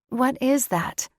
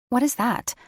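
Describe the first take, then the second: First: It is said with lively inflection. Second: It is said in a dull, flat voice.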